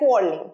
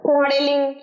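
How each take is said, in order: First: The word is said with two syllables. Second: The word is said with three full syllables. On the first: The speaker calls it right. "Perfect" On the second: The speaker calls it wrong. "কোয়ারেলিং কোয়ারেলিং ভুল"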